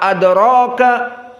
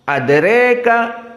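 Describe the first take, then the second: First: The vowel after r is an open a. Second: The vowel after r leans strongly toward e. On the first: This is the standard reading with fathah. "sebagian tidak bisa membaca adro" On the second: This is the reading with imalah kubra. "bisanya adre"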